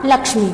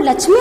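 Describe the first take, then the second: First: लक्ष्मी said with ksh, लक्ष्मी; correct pronunciation. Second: लक्ष्मी said with ch, लक्च्मी; wrong pronunciation. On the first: Teacher to students, modelling ksh in लक्ष्मी. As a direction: say लक्ष्मी with a clear ksh sound. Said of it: "शुद्ध उच्चारण क्या होगा". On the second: Teacher to students, showing the wrong ch in लक्ष्मी. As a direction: show लक्ष्मी with a ch sound. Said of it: "तो लक्ष्मी उच्चारण गलत है". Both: Shown as a demonstration.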